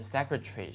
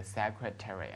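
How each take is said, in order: First: "secretary" in British style, shortened to "secretry"; British pronunciation. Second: "secretary" American-style, with a full "-tary"; American pronunciation. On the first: Teacher shows how many think it sounds, British pronunciation. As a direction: squeeze the end of "secretary" into "-tri". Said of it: "是比较英式的发音". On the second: Teacher contrasts American with British, full-vowel American pronunciation. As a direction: sound out "terry" at the end of "secretary". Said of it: "美国呢喜欢读成这个". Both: Shown as a demonstration.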